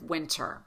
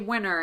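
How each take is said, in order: First: The T after the N is fully pronounced. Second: The T after the N is dropped. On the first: "instead of winter" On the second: "so many people who say winter"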